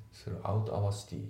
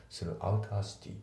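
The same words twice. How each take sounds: First: スルーアウトアワーシティ said word by word, out and our kept apart; unlinked throughout our city. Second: スルーアウターシティ with out and our run together as outer; linked throughout our city. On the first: Teacher showing the wrong unlinked reading. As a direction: keep each word in スルーアウトアワーシティ separate. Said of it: "じゃなくて". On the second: Teacher showing the right linked reading. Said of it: "リンキングが起きてて". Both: Shown as a demonstration.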